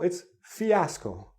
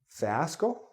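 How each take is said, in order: First: The first syllable sounds like 'fee'. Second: The first syllable sounds like 'fie'. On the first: The speaker calls it right. "No, it's fiasco. Again, the E" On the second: The speaker calls it wrong. "you're thinking, fiasco?"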